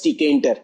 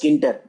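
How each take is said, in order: First: The word begins with a t sound. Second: The word begins with a k sound. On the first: "but I used to pronounce it as tkinter" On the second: "You can pronounce it as Kinter"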